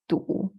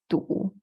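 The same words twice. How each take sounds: First: It is said in the third tone. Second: The same.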